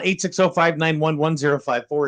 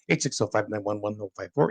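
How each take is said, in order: First: The number is read out at normal speed. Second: The number is rattled off very quickly.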